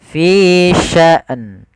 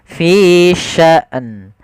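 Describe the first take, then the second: Both takes have the same delivery.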